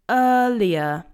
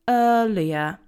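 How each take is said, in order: First: The R sounds are left silent. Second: The R sounds are left silent.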